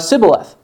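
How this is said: It starts with an 's' sound, Ephraimite style.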